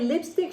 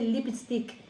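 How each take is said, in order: First: It is said with a standard English accent. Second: It is said with a Spanish accent. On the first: This is the usual way to say it. "she wouldn't say lipstick" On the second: This is how a Spanish speaker said it. "she would say lipstick"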